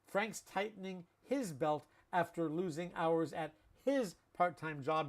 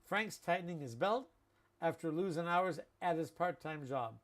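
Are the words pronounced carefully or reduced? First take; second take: carefully; reduced. First: Every sound is pronounced fully and carefully. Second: Endings are dropped and words run together. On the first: The speaker calls it wrong. "because we don't say that" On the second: The speaker calls it right. "This is how we speak"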